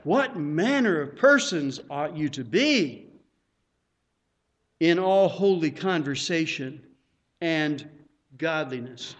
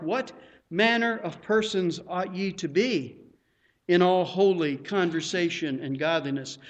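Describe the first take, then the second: First: Preacher exclaiming the verse with awe; as an exclamation. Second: Verse posed as a question. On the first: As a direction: land it like an exclamation. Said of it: "follow that with an exclamation point". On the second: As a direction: read as an asking question. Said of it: "We can follow that with a question mark". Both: Shown as a demonstration.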